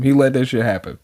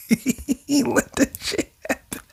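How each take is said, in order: First: Said in the usual way. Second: High, soft, slow words squeezed through laughter; real laughing. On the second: Real, not acted. Reader cracks up over the hero allowing a crash, laughing. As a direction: repeat it while helplessly cracking up.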